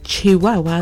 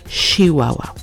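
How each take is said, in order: First: The word begins with a ch sound. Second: The word begins with a sh sound. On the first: "instead of Chihuahua" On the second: "pronounce the ch as sh"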